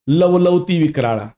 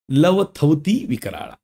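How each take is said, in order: First: The second syllable is pronounced 'la'. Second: The second syllable is pronounced 'tha'. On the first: The speaker calls it wrong. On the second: The speaker calls it right.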